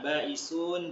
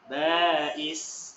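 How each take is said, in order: First: The word ends with an added 'un' syllable. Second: The word ends short on a bare consonant. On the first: The reader continues without stopping. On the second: The reader stops at this word.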